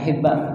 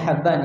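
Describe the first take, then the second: First: The first vowel is an i sound. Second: The first vowel is an open a sound. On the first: The speaker calls it wrong. "bukan Hibban" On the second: The speaker calls it right. "bacanya Habban ya"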